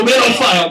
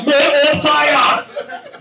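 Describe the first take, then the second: First: Said in the usual way. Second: High, very slow Man on fire; Denzel title drawled. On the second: Retold or imitated. Comic repeating a Denzel title slower and higher. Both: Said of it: "I go".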